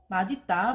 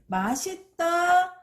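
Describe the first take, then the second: First: The linked consonant sounds like a d. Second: The linked consonant sounds like an s. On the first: "대표음인 디귿으로 바뀐 후에 연음이 돼요 … 발음하는 것이 맞습니다" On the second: "실제로 우리가 말할 때 … 더 많이 쓰죠"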